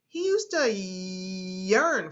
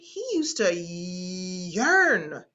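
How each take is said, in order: First: The Y sound in yearn is drawn out. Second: The vowel in yearn is drawn out. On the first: The speaker calls it right. "emphasizing the yeah in yearn" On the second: The speaker calls it wrong. "I leaned into the vowels"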